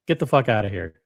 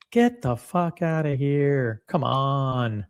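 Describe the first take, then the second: First: Said in the usual way. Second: Slow, scoffing get-outta-here; drawn-out dismissal. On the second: Real, not acted. Scoffing at viewers excited about minor brands, slow and drawn out. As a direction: drag it out in mock disbelief.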